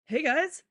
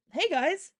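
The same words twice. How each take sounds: First: High, loud hail to friends; shouted greeting. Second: Higher, louder call-out; shouted greeting. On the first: Boy redoing his greeting to friends, raised shout. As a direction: call out a hello. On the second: Boy arriving to greet his friends, raised shout. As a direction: call cheerfully across to friends. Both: Acted. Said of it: "a voice shouted".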